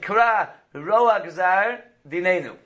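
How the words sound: Roa gazar is set apart by a break. It asks that the evil of the decree be torn up. The speaker calls it right. "So you want to make sure you have a separation"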